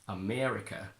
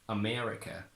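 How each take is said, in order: The two takes are said the same way.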